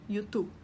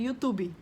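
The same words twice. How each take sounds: First: It is said with a Spanish pronunciation. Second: It is said with a Brazilian Portuguese pronunciation. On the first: "em espanhol a gente fala YouTube" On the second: "em português"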